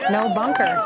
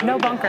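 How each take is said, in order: First: "No bunker." squeaked way up high with a rising tune; playful high-pitched imitation of a player; mock high quote. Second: Said in the usual way. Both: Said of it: "he said it himself".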